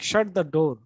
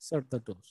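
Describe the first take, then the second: First: It is said boldly, with pitch rising. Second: It is said softly and politely. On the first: It is a command. "you will say it in a bold way. Okay, changing your pitch variation from low to high" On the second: It is a request. "you will say it very politely"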